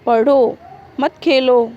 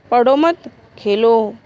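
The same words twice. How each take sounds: First: पढ़ो said firmly alone, a short pause, then मत खेलो together; pause after पढ़ो. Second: पढ़ो मत run together and lifted, a short pause, then Khelo alone; pause after मत. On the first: Teacher showing students how a comma shifts meaning, pause after पढ़ो. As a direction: break after पढ़ो, keep मत with Khelo, a bit louder. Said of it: "विराम चिन्ह के तनिक इधर उधर हो जाने पर". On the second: Teacher showing students the moved comma flips meaning, pause after मत. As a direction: break after मत, keep it with पढ़ो, a bit louder. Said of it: "अल्प विराम का स्थान बदल जाने पर".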